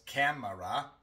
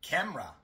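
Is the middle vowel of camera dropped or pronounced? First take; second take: pronounced; dropped. First: The unstressed middle vowel is fully pronounced. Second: The unstressed middle vowel is dropped entirely. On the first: The speaker calls it wrong. "No decimos camera" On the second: The speaker calls it right. "sino camera"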